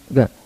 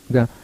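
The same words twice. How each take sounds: The two takes are said the same way.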